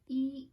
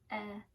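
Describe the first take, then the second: First: The vowel is a long ee sound. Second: The vowel is a short eh sound. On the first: "when it says its name, it's E" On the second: "the short sound says eh"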